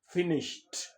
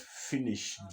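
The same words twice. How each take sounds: First: The ending is a t sound. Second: The ending is not a t sound. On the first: The speaker calls it right. "you give it a t" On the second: The speaker calls it wrong. "not finished"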